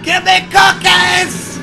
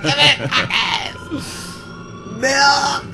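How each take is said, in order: First: High drawn-out scream. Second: Retold scream. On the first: Retold or imitated. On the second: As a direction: shout it high like a child. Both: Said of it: "He's screaming at her".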